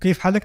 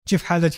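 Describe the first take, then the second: First: It is said with standard Arabic sounds. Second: It is said with Palestinian village dialect sounds. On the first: "वो कैफ हालक नहीं कहते" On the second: "चिफ हालच कहते हैं"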